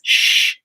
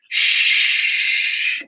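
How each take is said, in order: First: The sh is made with differently shaped lips. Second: The sh is made with spread lips. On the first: "So in Russian, the lips will be like this" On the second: "in English, you have to spread your lips a little bit like this"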